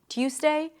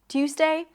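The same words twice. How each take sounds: Both takes have the same delivery.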